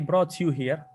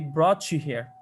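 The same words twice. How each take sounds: First: The t and y are said separately. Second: The t and y blend into one sound. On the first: The speaker calls it wrong. "they don't say" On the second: The speaker calls it right. "They say"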